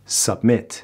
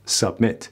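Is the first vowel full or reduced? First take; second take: reduced; reduced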